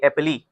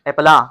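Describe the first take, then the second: First: The word ends in an 'ee' vowel. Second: The word ends in an 'ah' vowel. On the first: "अगर हमें phonology का पता नहीं होता, तो हम कहते एप्पली" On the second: "हम कहते एप्पला"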